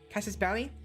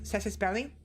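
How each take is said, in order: First: The first vowel sounds like the 'a' in cat. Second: The first vowel sounds like the 'e' in bed. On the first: The speaker calls it wrong. "I always call it Cassis" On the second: The speaker calls it right. "but I think it's pronounced Cessus Belli"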